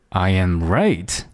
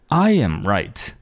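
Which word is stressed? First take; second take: right; I. First: The stress is on the word right. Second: The stress is on the word I. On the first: "第三个哒哒哒I am right" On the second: "第一种哒哒哒I am right"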